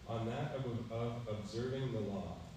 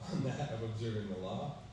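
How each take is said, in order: First: It is said as a statement. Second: It is said as a question. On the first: It asserts the principle. The speaker calls it wrong. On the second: It asks whether that is the principle. The speaker calls it right.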